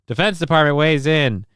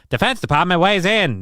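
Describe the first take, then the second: First: It is read in his normal voice. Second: It is read like a 1940s newsreel announcer.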